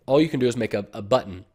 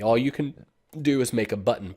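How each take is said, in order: First: Said in the usual way. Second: Talking through hiccups. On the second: Real, not acted. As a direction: hiccup breaks the line. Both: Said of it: "Pardon me, I got the hiccups".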